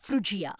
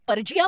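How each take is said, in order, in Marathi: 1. शब्दाची सुरुवात 'fru' आवाजाने होते. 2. शब्दाची सुरुवात 'pur' आवाजाने होते. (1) "रेफ्रिजरेटरचा विचार करा" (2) "मी त्याला कदाचित पर्जिया म्हटलं असतं"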